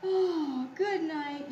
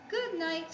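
First: Storybook yawn through the words. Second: High little mouse goodnight; squeaky mice. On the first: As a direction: open with a big voiced yawn. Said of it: "yawned Possum". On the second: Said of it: "squeaked the mice". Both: A narrator's reading.

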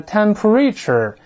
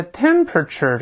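First: "temperature" misread with a full "ree" in the middle; wrong pronunciation of temperature. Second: "temperature" stressed on the first syllable; correct pronunciation of temperature. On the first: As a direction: say "temperature" as tem-puh-REE-chur. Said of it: "不要读成temperature". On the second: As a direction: say "temperature" with a weak, reduced middle, TEM-pruh-chuh. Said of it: "要注意这发音啊". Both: Shown as a demonstration.

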